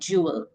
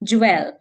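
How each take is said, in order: First: A light 'uh' vowel comes before the final L. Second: An 'eh' vowel comes before the final L. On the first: The speaker calls it right. "अ ल से पहले थोड़ा अ sound आ रहा है" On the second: The speaker calls it wrong. "हम गलत कैसे बोलते हैं इसको"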